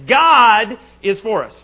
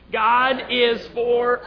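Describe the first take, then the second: First: The stress falls on the word 'God'. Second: The stress falls on the word 'us'. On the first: "First time we're going to emphasize God" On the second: "And then the last time, us"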